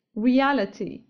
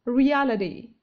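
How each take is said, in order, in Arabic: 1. يُنطق الحرف t كحرف T واضح. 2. يُنطق الحرف t كنقرة سريعة تشبه D. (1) "يمكنكم نطق هذه الكلمة بحرف T" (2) "في النطق الأمريكي تنطق"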